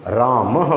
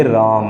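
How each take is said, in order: First: रामः ending in a breathy ह after the vowel, said a little slowly; visarga h sound. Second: राम said with a light short अ after the म; short a ending. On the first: Teacher demonstrating visarga on रामः, breathy ह at the end. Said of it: "वहाँ पर ह की sound आती है". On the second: Teacher showing the अ sound at the end of राम. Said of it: "वहाँ अ की साउंड आती है". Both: Shown as a demonstration.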